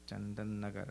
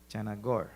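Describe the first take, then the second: First: The name is said in full, every syllable. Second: The name is said shortened, with syllables run together. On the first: This is the speaker's own way of saying it. "right here in Chandan Nagar" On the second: This is how the listeners say it. "I think you pronounce that some, some other way"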